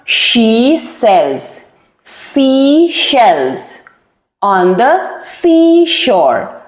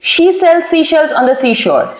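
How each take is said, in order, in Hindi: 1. यह धीरे बोला जाता है, एक-एक शब्द करके। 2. यह तेज़ बोला जाता है, शब्द आपस में मिलाकर। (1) "एक एक वर्ड करके अगर आप प्रैक्टिस करें ना" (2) "and that टू in a speed"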